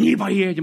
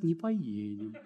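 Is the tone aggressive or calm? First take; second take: aggressive; calm. First: It is said in a harsh, aggressive tone. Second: It is said in a calm, gentle tone. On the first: The refusal comes across as hostile. The speaker calls it wrong. "оскал показал свой" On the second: The refusal comes across as friendly. The speaker calls it right. "Можно же нормально сказать"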